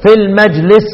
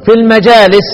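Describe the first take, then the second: First: "في المجلس" said short as majlis; singular reading. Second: "في المجالس" with the long a, majaalis; long-vowel reading. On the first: Teacher demonstrating the others' singular reading "في المجلس". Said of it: "والباقون يقرؤون إيه؟". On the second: Teacher demonstrating Aasim's plural reading "في المجالس". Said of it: "الوحيد اللي يقرأ إيه؟". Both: Shown as a demonstration.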